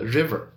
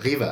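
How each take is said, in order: First: The R is pronounced the standard English way. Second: The R is a French throat sound.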